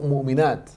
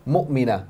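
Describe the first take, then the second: First: "مُؤْمِنَاتٍ" with a long aa, the plural -naat; wrong plural. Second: "مُؤْمِنَةٍ" ending short in -na, no long a; correct singular. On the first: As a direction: stretch the a in "مُؤْمِنَاتٍ" the way the student wrongly did. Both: Shown as a demonstration.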